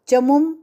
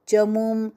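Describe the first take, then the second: First: The middle vowel is cut short. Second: The middle vowel is held long. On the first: The speaker calls it wrong. "नहीं" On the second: The speaker calls it right. "ये मु दीर्घ"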